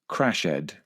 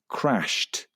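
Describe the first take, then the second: First: The ending is said as a separate 'ed' syllable. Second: The ending is a plain 't' sound. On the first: The speaker calls it wrong. "express these verbs phonetically" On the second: The speaker calls it right. "with a t sound at the end"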